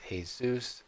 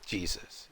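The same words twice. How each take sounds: First: "Jesus" said as hay-SOOS; Spanish-style Jesus. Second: Said in the usual way. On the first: Shown as a demonstration. Example of J pronounced differently, "Jesus" as hay-SOOS. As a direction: say "Jesus" with an H sound for the J. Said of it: "It's pronounced sometimes". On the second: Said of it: "Here's an example".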